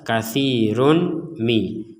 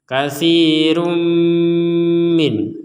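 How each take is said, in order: First: The n is pronounced clearly before the m. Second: The n merges into a nasalized, held m. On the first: The speaker calls it wrong. "kalau dibaca jelas" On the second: The speaker calls it right. "tanwinnya dimasukkan kepada huruf mim disertai dengungan"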